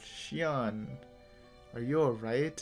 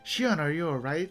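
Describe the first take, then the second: First: It sounds questioning and is said slowly. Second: It sounds worried and caring. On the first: "In like a questioning, slower voice" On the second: "Like sounded more concerned"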